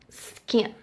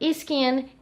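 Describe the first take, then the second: First: The word starts directly with the S sound. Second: An extra vowel sound comes before the S. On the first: The speaker calls it right. "It's better if you pronounce the S" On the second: The speaker calls it wrong. "Brazilians, they have this habit. For example, skin, ... but it's not the correct pronunciation"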